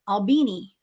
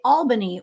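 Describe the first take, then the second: First: The name is said the local Southern way. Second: The name is said the usual general way. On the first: This is how locals in the region say it. "We call it" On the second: This is how most people say it. "what people would say"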